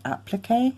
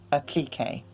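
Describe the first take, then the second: First: The word has a North American pronunciation. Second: The word has a British pronunciation. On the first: "in the United States and Canada probably say applique" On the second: "We say applique in the U K"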